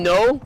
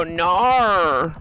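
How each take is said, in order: First: Said in the usual way. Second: "nar." stretched with an r on the end; exaggerated accent mimicry. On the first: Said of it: "Instead of them saying". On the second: Streamer mocking how others say no, exaggerated "nar.". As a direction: turn "no" into a long, ugly "nar.". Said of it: "and they go".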